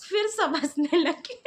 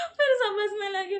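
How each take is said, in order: First: Slow, laughing through the words; real giggle as she retells the class laughing; laughing while telling. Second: Said in the usual way. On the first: Real, not acted. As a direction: let the laugh break into "हंसने लगे".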